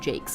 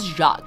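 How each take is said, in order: First: The name is said to rhyme with cakes. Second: The name is said the French way, like Zhahk. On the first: This is how the name's owner says it. The speaker calls it right. "he pronounces his own last name Jakes" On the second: This is how most other people say it. The speaker calls it wrong. "everyone's like, it's Jacques"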